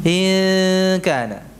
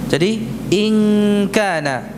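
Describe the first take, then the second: First: "in kana" with the n hidden in a long nasal hum, slow; ikhfa nasal. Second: "in kana" with a clear tongue-tip n, no hum; wrong n. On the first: Teacher showing the right way, slow nasal hum. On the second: Teacher showing the wrong way, crisp n. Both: Shown as a demonstration.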